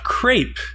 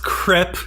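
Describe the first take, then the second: First: The vowel is a long 'ay' sound. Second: The vowel is a short 'eh' sound. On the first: The speaker calls it wrong. "not crepe" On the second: The speaker calls it right. "It's pronounced crepe"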